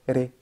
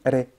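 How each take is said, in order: The two takes are said the same way.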